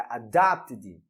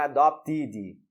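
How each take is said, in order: First: "adopted" low and slow, ending in a light "id"; teacher's corrected "adopted", short unstressed ending; correct ED pronunciation. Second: "adopted" with a full "tee" in it, "a-dop-tee-dee"; wrong "adopted", every ending vowel said as EE; wrong ED pronunciation. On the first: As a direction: model "adopted" as "a-DOPT-id", weak last vowel. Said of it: "é adopted". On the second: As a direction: show the mistake in "adopted", a heavy EE in the ending. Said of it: "Não é adopted". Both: Shown as a demonstration.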